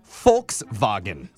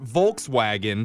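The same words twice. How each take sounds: First: The first sound is an F. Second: The first sound is a V. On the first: The speaker calls it right. "the V is pronounced with an F" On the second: The speaker calls it wrong. "it's also not"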